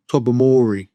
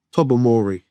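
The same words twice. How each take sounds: The two takes are said the same way.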